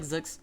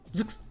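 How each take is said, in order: First: It is said plainly, without exaggeration. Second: It is said in an exaggerated, hammy way.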